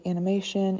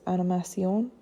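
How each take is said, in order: First: English "animation" closed with an N; "animation" said the English way, ending in N; closed final N. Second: French "animation" ending on a nasal O; "animation" said the French way, "ah-nee-mah-syon"; open O ending. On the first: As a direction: finish "animation" on a clear N consonant. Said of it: "we close it with that N". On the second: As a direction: leave the end of "animation" open, no N. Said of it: "end that word with an O". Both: Shown as a demonstration.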